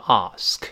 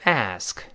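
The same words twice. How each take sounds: First: It is said with a British accent. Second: It is said with an American accent. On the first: "英式发音读成ask" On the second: "这个ask 美式发音"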